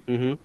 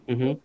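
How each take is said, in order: No difference in how they are said.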